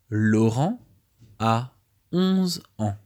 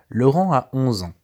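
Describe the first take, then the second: First: The sentence is read at a slower pace. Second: The sentence is read at a normal, quicker pace.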